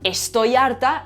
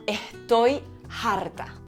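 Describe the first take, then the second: First: The s is full and the h is silent. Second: The s and the h are breathy aspirations.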